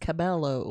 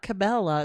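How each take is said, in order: First: The name ends with an 'oh' sound. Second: The name ends with an 'ah' sound. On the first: The speaker calls it right. "it's Cabello" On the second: The speaker calls it wrong. "not Cabela"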